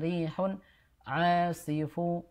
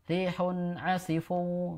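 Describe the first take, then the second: First: The vowel after the ain is held long. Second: The vowel after the ain is held short. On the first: The speaker calls it right. "yang panjang di ainnya" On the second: The speaker calls it wrong. "Tadi Ibu eh, bacanya rihun asifu begitu"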